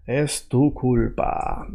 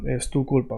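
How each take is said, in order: First: Slow, soft, word by word; stretched-out teaching pace; slow demo. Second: Said in the usual way. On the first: Shown as a demonstration. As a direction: model the phrase slowly and quietly. Models new phrase slowly.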